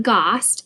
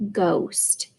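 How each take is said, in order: First: "ghost" said wrongly with a short ah sound, like gahst; wrong short vowel. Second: "ghost" with a clear long O, like gohst. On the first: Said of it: "but it's not ghost". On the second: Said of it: "it's O, ghost". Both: Shown as a demonstration.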